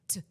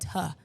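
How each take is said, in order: First: The consonant is clipped with no vowel after. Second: The consonant is followed by an uh vowel. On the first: The speaker calls it right. "So you got to cut off the schwa" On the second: The speaker calls it wrong. "The schwa is making the uh sound at the end of a consonant sound"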